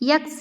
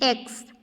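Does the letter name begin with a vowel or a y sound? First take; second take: y sound; vowel. First: It begins with a y sound before the vowel. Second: It begins directly with the vowel sound. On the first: The speaker calls it wrong. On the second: The speaker calls it right.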